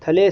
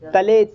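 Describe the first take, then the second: First: The t sound has a puff of breath. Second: The t sound has no puff of breath. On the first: The speaker calls it wrong. "थले सुनाई नहीं देना चाहिए मेरे को" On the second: The speaker calls it right. "दंती से दांत को जीभ में लगा के बोलो"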